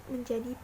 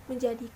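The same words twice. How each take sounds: The two takes are said the same way.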